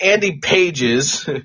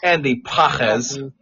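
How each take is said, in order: First: The surname is said with an English pronunciation. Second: The surname is said with a Spanish pronunciation. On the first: The speaker calls it wrong. "It's not Andy Pages" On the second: The speaker calls it right. "It's Andy Pajes"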